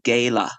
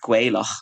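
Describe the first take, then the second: First: The final throaty 'ch' sound is dropped. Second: The final throaty 'ch' sound is pronounced. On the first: "up in the north, they would say Gaela. They don't pronounce the ch" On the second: "which is what how I would pronounce it"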